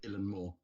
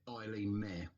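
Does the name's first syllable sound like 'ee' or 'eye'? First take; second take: ee; eye. First: The first syllable sounds like 'ee'. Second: The first syllable sounds like 'eye'. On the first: This follows a Scottish speaker. The speaker calls it right. "a Scottish fellow who pronounced it Ilan Moore" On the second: This follows an American speaker. The speaker calls it wrong. "the American person I found who pronounced it Eileen Mayer"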